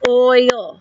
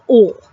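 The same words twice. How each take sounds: First: Oil said slowly in two syllables, oy-ul; oil drawn out as two syllables. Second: Oil said as one syllable, ol; oil clipped to a single syllable like the mother; Baltimore-style one-syllable oil. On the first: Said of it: "but I say oil". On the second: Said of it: "she says oil". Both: Shown as a demonstration.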